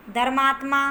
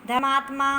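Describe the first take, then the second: First: धर्मात्मा with the r sounded; धर्मात्मा pronounced "dhar-maatma"; correct form. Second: धर्मात्मा without its r, "dhamaatma"; धर्मात्मा misspoken as "dha-maatma"; incorrect form. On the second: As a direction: drop the r in धर्मात्मा. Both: Shown as a demonstration. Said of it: "तो इसका शुद्ध रूप होगा".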